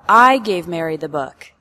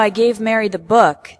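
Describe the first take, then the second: First: The word "I" carries the strongest stress. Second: The word "book" carries the strongest stress. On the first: The speaker, not someone else, gave it. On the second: It was the book, not another item.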